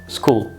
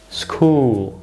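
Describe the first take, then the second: First: The vowel is a short u sound. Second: The vowel is a long u sound. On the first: The speaker calls it wrong. "not school" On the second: The speaker calls it right. "the word should be pronounced school"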